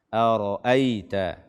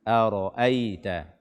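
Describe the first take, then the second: The two takes are said the same way.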